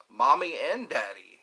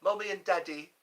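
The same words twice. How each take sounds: First: Said in the usual way. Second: Higher-pitched put-on British; British accent. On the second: Streamer trying out what kids called their parents, British accent. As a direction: play at being British. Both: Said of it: "That sounds very British".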